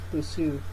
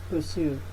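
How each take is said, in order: No difference in how they are said.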